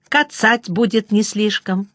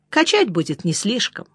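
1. Первое слово вместо этого начинается со звука 'ts'. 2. Первое слово начинается с чёткого звука 'ch'.

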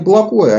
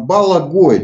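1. Звуки редуцированы, произносится небрежно. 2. Каждый звук чётко и полностью артикулирован. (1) "Мы говорим не Балагое" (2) "а именно Балагое, четко выговаривая все слова"

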